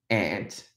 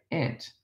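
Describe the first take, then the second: First: "aunt" said with a broad ah as in father; Australian aunt. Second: "aunt" said with a flat a like "ant"; American aunt. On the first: Teacher showing the Australian way to say "aunt". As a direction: say "aunt" like "ahnt". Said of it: "they say aunt or aunt". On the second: Teacher showing the American way to say "aunt". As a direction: say "aunt" just like the insect "ant". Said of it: "when they say aunt or aunt". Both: Shown as a demonstration.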